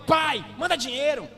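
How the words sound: It is said rudely and harshly.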